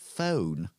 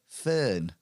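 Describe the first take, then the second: First: The vowel is a standard English long o. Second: The vowel sounds like the vowel in 'fern'. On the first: "they don't say phone" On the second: "They say fern"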